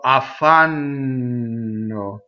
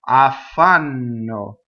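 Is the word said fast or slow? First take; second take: slow; fast. First: The word is said slowly with a long n. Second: The word is said quickly at normal speed. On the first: "That's slow motion" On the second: "when you say it fast"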